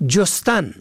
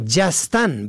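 First: جستن said as jostan, o in first syllable; damma on first letter. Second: جستن said as jastan, a in first syllable; fatha on first letter. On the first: Teacher contrasting homographs, jostan with damma. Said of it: "به ضم اول". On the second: Teacher contrasting homographs, jastan with fatha. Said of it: "به فتح اول". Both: Shown as a demonstration.

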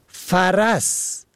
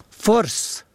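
First: فرس said "faras", two syllables; فتحه on first two letters. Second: فرس said "fors", one syllable; ضمه then sukun. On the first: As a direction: say فرس with short a twice. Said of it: "به فتح اول و دوم". (فرس با فتحهٔ ف و ر: فَرَس) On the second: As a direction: say فرس with o and no vowel after r. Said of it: "به ضم اول و سکون دوم". (فرس با ضمهٔ ف و سکون ر: فُرْس) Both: Shown as a demonstration.

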